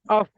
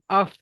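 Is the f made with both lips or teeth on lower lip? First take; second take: both lips; teeth on lip. First: The f is made without teeth on the lip. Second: The f is made with teeth on the lip. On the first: The speaker calls it wrong. "jangan macam tu" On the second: The speaker calls it right. "gigi kena dekat bibir"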